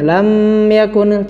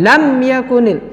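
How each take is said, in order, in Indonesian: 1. Bibir tertutup terlalu lama pada m. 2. Huruf m dipotong dengan hentakan. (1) "Tidak boleh berlama-lama menempelkannya. ... tidak ya" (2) "atau dihentakkan"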